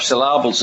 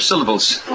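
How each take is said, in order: First: African English, "syllables" said as "sy-LAH-bles"; African accent. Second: Said in the usual way. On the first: Acted. Preacher joking about African English to his audience, African accent. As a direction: imitate an African stress, leaning on LAH in "syllables". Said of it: "put the emphasis on the last syllable". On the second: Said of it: "instead of syllables".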